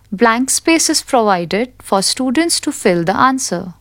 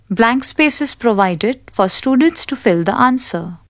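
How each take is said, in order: Both takes have the same delivery.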